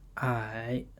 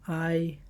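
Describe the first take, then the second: First: The pitch dips low, then rises. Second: The pitch stays high and level.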